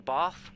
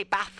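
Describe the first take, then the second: First: BATH with a long ah, as in father; alternative pronunciation. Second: BATH with a short a, as in cat; short flat-a Bath; pronunciation option. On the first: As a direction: stretch the vowel in Bath to ah. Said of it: "like, an extended ah". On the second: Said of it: "do they say Bath or Bath". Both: Shown as a demonstration.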